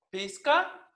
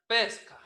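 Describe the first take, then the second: First: Pizca read with a clear i; teacher reads pizca as spelled, i and c; written form. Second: Pesca said with e, aspirated k; teacher models pesca, lowering i to e; spoken form. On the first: Teacher shows the written spelling, reading pizca as written. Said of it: "Se escribe pizca". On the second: Teacher gives the real pronunciation, pesca with e. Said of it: "se pronuncia pesca". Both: Shown as a demonstration.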